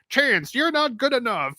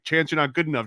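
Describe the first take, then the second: First: It is said in a scheming cartoon villain voice. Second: It is said in an ordinary speaking voice. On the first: The harsh inner criticism sounds silly and loses power. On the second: The harsh inner criticism sounds serious.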